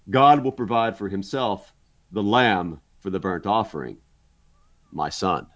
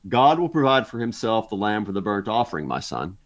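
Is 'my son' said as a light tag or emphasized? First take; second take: emphasized; light tag. First: The words 'my son' carry strong emphasis. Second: The words 'my son' are a light trailing tag. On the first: The son is the lamb to be offered. "Or you can read it this way, ... In other words, my son is the lamb" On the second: The son is simply being addressed. "You can read it like that, my son, simply being a way that Abraham is addressing Isaac"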